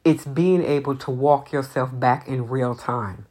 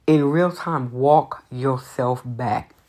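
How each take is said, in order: First: Said in the usual way. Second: Walk yourself back slowly, stressed; emphatic repeat. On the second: Shown as a demonstration. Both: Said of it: "what I will always say".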